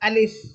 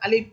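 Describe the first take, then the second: First: It ends with light air escaping like an f. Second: It ends with the lips closed like a p. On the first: The speaker calls it right. "ফয়ের উচ্চারণ করবেন, ... বাতাস একটু বের হবে" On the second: The speaker calls it wrong. "শেষে আপনি পয়ের উচ্চারণ করলেন, ... মুখ একেবারে বন্ধ করে দিলেন"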